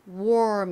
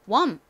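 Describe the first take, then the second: First: It is said with full English sounds. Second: It is said with simplified Korean-style sounds. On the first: "이렇게 정확히 발음하기 힘드시면" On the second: "이렇게 기억해 주세요"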